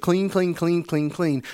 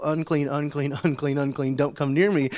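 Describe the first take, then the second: First: Higher, louder, excited repeats; retold cry of joy, starting high and settling; joyful mock yell. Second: Repeated warning cry, only slightly raised; mock yell to keep people away; retold warning yell. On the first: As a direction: fire it off like happy news. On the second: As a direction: chant the warning in a half-raised voice. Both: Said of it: "able to not yell".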